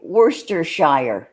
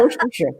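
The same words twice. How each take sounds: First: Worcestershire as WUR-ster-SHY-er; American pronunciation. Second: Worcestershire as WOR-ster-shuh; British pronunciation. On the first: Host asking English guest, Worcestershire the American way with SHY-er. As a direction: say Worcestershire with full SHY-er ending. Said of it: "How do you say". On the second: Host copying English guest, Worcestershire ending in weak -shuh. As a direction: laughingly shorten Worcestershire to end in -shuh. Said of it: "all the shires are pronounced sure". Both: Shown as a demonstration.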